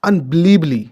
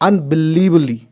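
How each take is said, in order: No difference in how they are said.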